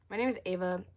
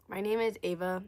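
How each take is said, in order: Both takes have the same delivery.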